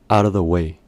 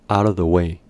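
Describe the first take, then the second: First: The word 'of' is reduced to almost nothing. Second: The word 'of' is reduced to almost nothing.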